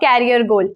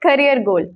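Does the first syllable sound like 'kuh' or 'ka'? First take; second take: ka; kuh. First: The first syllable is not a 'kuh' sound. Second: The first syllable is a 'kuh' sound. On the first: The speaker calls it wrong. "Not" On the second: The speaker calls it right. "के यू एच क"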